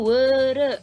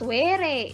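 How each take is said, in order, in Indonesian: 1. Kedua vokal itu bunyi eu Sunda. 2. Kedua vokal itu bunyi e biasa. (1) "Jadi mah weureu gitu nya" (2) "Sanes were nya nah, atau were kan hese"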